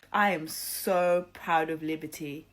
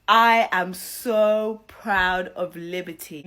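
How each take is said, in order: First: Said in the usual way. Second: Louder and slow, stretching each word; emphatic praise. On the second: Real, not acted. Vlogger praising Liberty to viewers, loud slow emphasis. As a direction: drive the pride home slowly.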